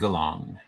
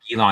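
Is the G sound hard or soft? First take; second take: hard; soft. First: The first G is hard, like in go. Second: The first G is soft, like a J. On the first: The speaker calls it right. "you say" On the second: The speaker calls it wrong. "So you don't say"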